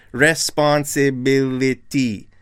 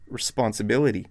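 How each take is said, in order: First: Responsibility slow, every syllable stressed; responsibility drawn out in separate, equal beats; jagged, many stresses. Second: Said in the usual way. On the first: Shown as a demonstration. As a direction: hammer each syllable of responsibility, RES-PON-SI-BI-LI-TY. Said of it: "more stresses all in the word". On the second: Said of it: "We say".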